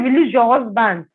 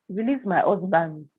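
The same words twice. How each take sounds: First: Imitated firm order; retold demand. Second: Retold bewildered question, softer and slow; puzzled echo. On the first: Accuser ordering the wife about her husband, insistent. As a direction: press the demand, mildly forceful. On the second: Wife repeating the prophet's demand back, puzzled. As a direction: echo it slowly in mild disbelief.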